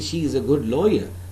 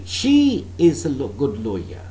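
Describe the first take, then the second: First: No word gets special emphasis. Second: The word she gets strong emphasis. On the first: It simply gives information. "that means I'm simply informing you" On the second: This particular woman, as opposed to others, is a good lawyer. "I can emphasize the word she"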